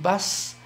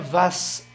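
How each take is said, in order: First: The syllable begins with a b sound. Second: The syllable begins with a v sound. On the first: The speaker calls it right. "Um bas, não é vas" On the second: The speaker calls it wrong. "não é vas"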